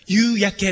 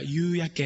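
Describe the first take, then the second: First: Every sound is articulated fully and distinctly. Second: Some sounds are slightly blurred, as in casual speech. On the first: "はっきり音を出すんだったら" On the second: "普通だったら"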